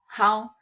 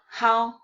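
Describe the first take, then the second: No difference in how they are said.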